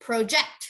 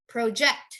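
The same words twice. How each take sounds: The two takes are said the same way.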